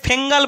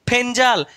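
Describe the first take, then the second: First: It has an 'ng' sound and an 'e' vowel. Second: It has an 'nj' sound and an 'e' vowel. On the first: The speaker calls it wrong. "অনেকে ফেঙ্গাল বলছে" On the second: The speaker calls it right. "এর actually উচ্চারণ হচ্ছে ফেঞ্জাল"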